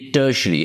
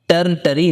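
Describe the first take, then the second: First: The r sound is left silent in the word. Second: The r sound is pronounced in the word. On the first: The speaker calls it right. "आर silent है" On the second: The speaker calls it wrong. "ये टर्न टरी नहीं है"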